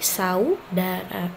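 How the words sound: The a and u stay in one syllable. The speaker calls it right. "antara A dengan U-nya itu tidak dipenggal"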